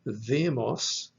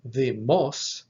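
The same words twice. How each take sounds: First: Demos with the accent on DE; DE-mos, leaning on the start of demos; stress on first syllable. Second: Demos with the accent on final MOS; de-MOS, leaning on the end of Demos; stress on last syllable. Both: Shown as a demonstration. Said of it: "the only difference is in the accent".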